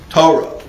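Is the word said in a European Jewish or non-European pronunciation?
European. It is said in a European Jewish pronunciation.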